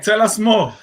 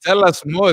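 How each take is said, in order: First: Said in the usual way. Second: Excited. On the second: Acted. Host echoes guest.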